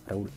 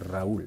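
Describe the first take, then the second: First: The first R is short and light. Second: The first R is long and strongly rolled. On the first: The speaker calls it wrong. "On dit pas" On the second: The speaker calls it right. "on dit ... on l'allonge ... j'exagère un peu"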